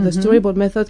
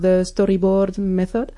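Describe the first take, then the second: First: It is said with an English-like accent. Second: It is said with a Spanish accent.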